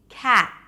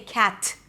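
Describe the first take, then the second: First: The final T is barely released. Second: The final T is strongly released. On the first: The speaker calls it right. "a light, hardly released T" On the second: The speaker calls it wrong. "I don't say cat"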